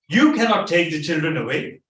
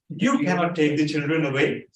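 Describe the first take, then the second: First: It is said forcefully, with extra force. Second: It is said mildly, without extra force. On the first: "you could have said" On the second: "let me try to read the writing"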